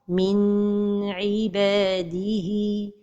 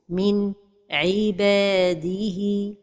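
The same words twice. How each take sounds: First: The n sound is held too long. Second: There is a pause after the n. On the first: "La deuxième erreur, c'est de prolonger son temps" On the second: "La troisième erreur, c'est la pause"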